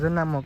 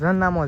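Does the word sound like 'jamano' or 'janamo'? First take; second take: janamo; janamo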